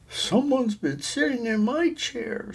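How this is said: It is said in a middle-sized voice.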